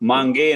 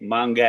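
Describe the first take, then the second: First: The word ends in an 'e' vowel. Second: The word ends in an 'a' vowel. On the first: The speaker calls it wrong. "मांगे नहीं" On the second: The speaker calls it right. "मांगा है"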